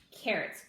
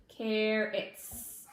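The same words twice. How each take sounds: First: Said in the usual way. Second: Carrots said slowly, sound by sound blended; teacher blending carrots after sounding it out; carrots stretched out. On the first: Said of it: "first thing I would plant is". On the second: Shown as a demonstration. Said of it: "T, T".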